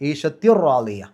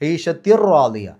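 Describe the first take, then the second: No difference in how they are said.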